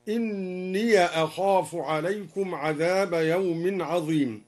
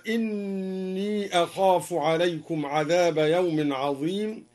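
First: إني said "inniya" before أخاف; fatha on ya. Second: Said in the usual way. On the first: Shown as a demonstration. Teacher shows al-Duri's reading, إني linked as "inniya". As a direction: open the end of إني with a short a, no long ee. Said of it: "فتح الدوري الياء وصلا هكذا". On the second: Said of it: "قوله تعالى".

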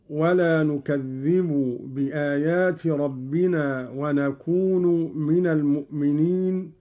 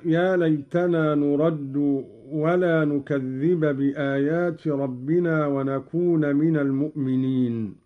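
First: نكذب and نكون end in u, "nukadhdhibu", "nakūnu"; Qalun reading. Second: نكذب and نكون end in a, "nukadhdhiba", "nakūna"; Hafs reading. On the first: Teacher shows Qalun's nominative reading. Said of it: "بالرفع". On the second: Teacher recites the Hafs reading before Qalun's. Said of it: "قرأ قالون بالرفع". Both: Shown as a demonstration.

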